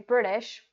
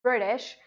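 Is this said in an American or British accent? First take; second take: American; American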